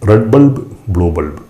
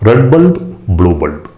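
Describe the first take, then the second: The two takes are said the same way.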